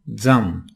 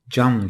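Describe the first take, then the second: First: The first sound is a 'dz' sound. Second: The first sound is a 'j' sound. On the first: The speaker calls it right. "Zazaca'daki kural gereği zam diyoruz" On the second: The speaker calls it wrong. "Cam diye okumuyoruz"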